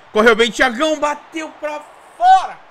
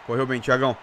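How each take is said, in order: First: Higher and louder cheer; excited cheer. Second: Said in the usual way. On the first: Real, not acted. Repete a frase crescendo. (torcida empolgada)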